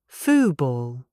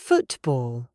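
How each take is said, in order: First: The T becomes a glottal stop. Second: The T is fully pronounced. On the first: It sounds casual and ordinary. "the T is gone. I cut the sound in my throat" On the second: It sounds very formal. "If I pronounce the true T"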